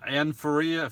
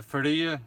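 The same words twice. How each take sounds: First: Faria with an English r; English pronunciation. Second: Faria with a tapped r; Portuguese-style pronunciation. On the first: Streamer greeting a viewer by name, Faria said with English r. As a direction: say "Anne Faria" the English way, ordinary r in Faria. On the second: Streamer trying a viewer's name, Faria with Portuguese tapped r. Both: Shown as a demonstration. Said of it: "I don't know if it's Portuguese".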